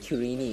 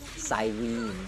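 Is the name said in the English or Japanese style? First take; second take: Japanese; English. First: The name is said in the Japanese style. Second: The name is said in the English style. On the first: This is the pronunciation the Japanese dub uses. "it's actually Kirini" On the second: This is the pronunciation the English version uses. "instead of Cyrene"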